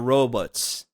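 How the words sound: Robots is said with a Canadian-style vowel. "that was a big one that they would say"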